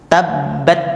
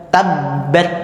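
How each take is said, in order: No difference in how they are said.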